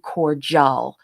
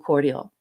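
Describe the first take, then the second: First: The middle consonant is a j sound. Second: The middle consonant is a d sound. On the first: "I will not be saying cordial" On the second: "I'll be saying cordial"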